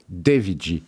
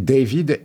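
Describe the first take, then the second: First: David G said as Devid Ji, the Rio way; showing how Rio friends said his name; Carioca David. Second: Said in the usual way. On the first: Shown as a demonstration. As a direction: say David G as a Rio local calls him, Devid Ji. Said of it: "mais avec l'accent carioca, ça fait". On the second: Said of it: "mais avec l'accent carioca".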